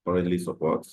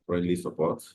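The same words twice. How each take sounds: The two takes are said the same way.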